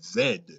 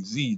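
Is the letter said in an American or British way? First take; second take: British; American. First: It is said the British way, as zed. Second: It is said the American way, as zee.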